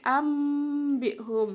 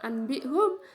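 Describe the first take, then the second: First: An m sound comes before the b. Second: A clear n sound comes before the b. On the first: The speaker calls it right. "tapi ambihum ya, nun sukunya dibaca mim sukun" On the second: The speaker calls it wrong. "bukan anbihum"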